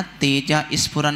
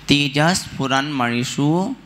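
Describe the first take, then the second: First: तेजा स्फुरन as "teja isphuran"; wrong extra vowel. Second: तेजः स्फुरन्मणिषु as "tejahs-phuran-manishu"; correct sandhi. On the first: Teacher shows the wrong reading, तेजा स्फुरन with added i. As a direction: drop the h and put i before स्फुरन. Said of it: "नहीं पढ़ना". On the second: Teacher gives the right तेजः स्फुरन्मणिषु, no added i. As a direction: sound the h of तेजः straight into the s. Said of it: "ऐसे नहीं पढ़ना". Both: Shown as a demonstration.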